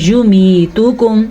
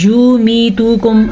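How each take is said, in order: First: یمیتکم with only "mee" held long; correct vowel lengths. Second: یمیتکم with "yoo" and "too" dragged long; wrong demo, یمیتکم overlong throughout; wrongly lengthened vowels. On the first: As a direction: keep "yu" and "tu" short in یمیتکم. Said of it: "ہم نے پڑھنا ہے". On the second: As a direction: stretch every vowel of یمیتکم. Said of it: "ایسے بھی نہیں پڑھنا". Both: Shown as a demonstration.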